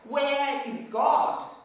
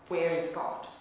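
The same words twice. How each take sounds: First: It is said very loudly, almost shouted. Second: It is said at a moderate, normal volume.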